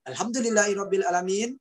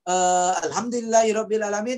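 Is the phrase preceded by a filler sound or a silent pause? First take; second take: silent pause; filler sound. First: A silent pause comes before the phrase. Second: A filler 'eh' comes before the phrase.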